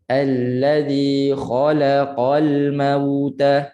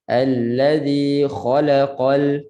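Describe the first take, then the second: First: Very slow recitation of "Allazi khalaqal mauta", la given its full beat; even beats. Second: "allazi khalaqal" recited with la hurried to half a beat; rushed la. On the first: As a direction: recite "Allazi khalaqal mauta" slowly, each short vowel equally timed. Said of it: "Biar adil satu harakat". ("Allazi khalaqal mauta" perlahan, adil satu harakat) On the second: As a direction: skim over the la in "allazi khalaqal". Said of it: "biasa dekat la itu kita terlaju". ("allazi khalaqal" dengan la terlaju) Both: Shown as a demonstration.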